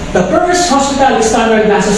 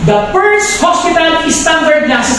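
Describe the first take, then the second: First: It is read flatly, with little energy. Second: It is said with lively, emphatic energy. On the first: It makes no impression on the listeners. The speaker calls it wrong. "kung babasahin ko lang po ng ganito, walang dating sa inyo" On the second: It is brought to life for the listeners. The speaker calls it right. "bibigyan ko ng buhay"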